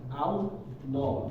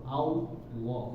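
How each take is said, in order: No difference in how they are said.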